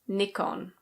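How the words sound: It is said with a British pronunciation. "In British English, this is Nikon"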